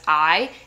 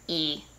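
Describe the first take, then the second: First: The letter name sounds like "eye". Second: The letter name sounds like "ee". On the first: The speaker calls it wrong. "which is not said as I" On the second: The speaker calls it right. "it's said as E"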